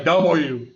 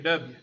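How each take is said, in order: First: It is said in a careful, full standard way. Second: It is said in a clipped local Southern way. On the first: The speaker wants to sound sophisticated. "people that are sophisticated on T V" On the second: The speaker is from the South. "unless you're from around here"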